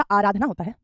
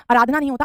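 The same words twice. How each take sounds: First: आराधना opened with a long aa; correct pronunciation. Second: आराधना opened with a short a; wrong pronunciation. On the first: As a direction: begin आराधना as "aa-raa". (सही उच्चारण, आराधना के शुरू में लंबा आ) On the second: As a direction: begin आराधना as "a-raa". (गलत उच्चारण, आराधना के शुरू में छोटा अ) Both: Shown as a demonstration.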